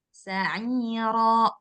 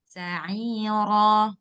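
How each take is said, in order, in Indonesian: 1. Vokal akhirnya diputus mendadak. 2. Vokal akhirnya dilepas dan memudar. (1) "Mbak Diana buatnya gini" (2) "Yang benarnya, nggak boleh ada hamzah di belakang"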